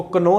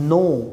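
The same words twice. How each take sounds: First: कनो said with a sounded k, "ka-no"; wrong k sound. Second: No said as "no" with no k sound; silent k. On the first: (कनो, गलत उच्चारण, के बोलते हुए) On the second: (no को "नो" बोलें, के silent) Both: Shown as a demonstration. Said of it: "इसको कनो नहीं पढ़ते".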